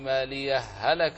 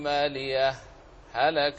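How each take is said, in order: First: The two h sounds merge with no pause. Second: A brief pause separates the two words. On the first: "فتدغم" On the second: "الإظهار ولا يتأتى الإظهار كما سلف الذكر إلا بسكتة لطيفة"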